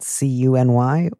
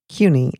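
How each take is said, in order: First: The name is spelled out letter by letter. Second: The name is said as a single word. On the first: "if you said it C-U-N-Y" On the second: "or if you said it CUNY"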